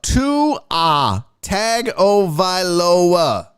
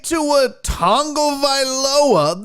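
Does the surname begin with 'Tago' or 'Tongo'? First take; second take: Tago; Tongo. First: The surname begins with the sound 'Tago'. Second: The surname begins with the sound 'Tongo'. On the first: The speaker calls it right. "His name is Tua Tagovailoa" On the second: The speaker calls it wrong. "there is no Tongo in his name"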